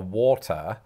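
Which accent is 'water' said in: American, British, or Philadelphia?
British. It is said with a British pronunciation. "I order a water"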